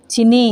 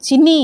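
First: Said in the usual way. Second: Higher, rising call of the name; insistent call. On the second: Acted. Amused friend calls her before a question, insistent call. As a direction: lift the name to get her attention.

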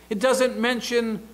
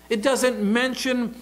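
The two takes are said the same way.

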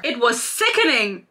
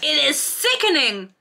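First: Said in the usual way. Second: "sickening" drawn out, higher and slowed for scorn; stress on sickening. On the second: Shown as a demonstration. Vlogger mocking the book's prose, slow stressed "sickening". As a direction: lean hard on "sickening" in disgust.

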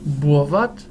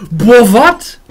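First: Said in the usual way. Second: Loud, higher stunned outburst; shocked exclamation. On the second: Real, not acted. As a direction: blurt it out in disbelief. Stunned by a card effect, repeated louder.

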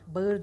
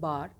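First: Bağır as "ba-ır"; spelling pronunciation. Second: Bağır as one long "baar"; spoken form. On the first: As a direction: sound out Bağır with an audible ı. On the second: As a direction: drop the ı in bağır. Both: Shown as a demonstration. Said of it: "Bağır değil".

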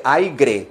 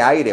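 First: "aire" with intrusive g, AI-gre; slow mistaken "aire" with added g; wrong pronunciation. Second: "aire" as AI-re, no g; correct pronunciation. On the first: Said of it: "No se dice". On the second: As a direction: say "aire" with just a tapped r. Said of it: "se dice". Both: Shown as a demonstration.

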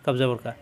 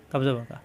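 No difference in how they are said.

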